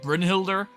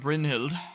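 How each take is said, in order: First: The name ends with an R sound. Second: The name ends without an R sound. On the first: The speaker calls it wrong. "I always used to say, like, Brynhilder, but I don't think that you say the R" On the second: The speaker calls it right. "I think that's how it's pronounced"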